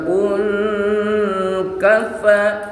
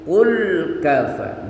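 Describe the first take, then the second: First: The L of qul is blurred, not clearly sounded. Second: The L of qul is sounded clearly and distinctly. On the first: The speaker calls it wrong. "Enggak boleh baca qul kafa" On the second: The speaker calls it right. "tapi qul kafa, jelas lamnya ya"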